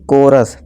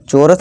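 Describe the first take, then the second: First: The word begins with a k sound. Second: The word begins with a ch sound. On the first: The speaker calls it right. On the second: The speaker calls it wrong.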